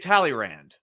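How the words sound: The name is said with an American pronunciation. "that's how we would say his name"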